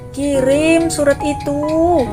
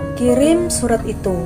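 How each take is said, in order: First: The phrase is said with long, drawn-out intonation. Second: The phrase is said with short, brief intonation. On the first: The order sounds forceful and impolite. The speaker calls it wrong. "semakin panjang nada intonasi ... terdengar agak memaksakan" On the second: The order sounds gentle and polite. The speaker calls it right. "coba pengucapannya pendek ... kan terdengar lembut"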